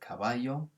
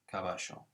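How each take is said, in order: First: The double L sounds like a y. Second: The double L sounds like sh. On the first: This is how it is said in mainland Spain. "in most of mainland Spain, it's a y" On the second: This is how it is said in Buenos Aires and Uruguay. "in Buenos Aires... it's a sh"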